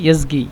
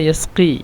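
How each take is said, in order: First: It is said with z and a g sound. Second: It is said with s and a k-like qaf sound. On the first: This is how people say it in everyday speech. "এটাকে বলে ইয়াজগি" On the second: This is the original standard form of the word. "সিন কফ ইয়া সাকা ইয়াসকি"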